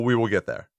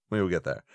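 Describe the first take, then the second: First: Said in the usual way. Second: Trailing off softly. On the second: Real, not acted. Putting off the topic for later, trailing off quietly. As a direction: lower and much softer, fading away. Repeating himself, fading out.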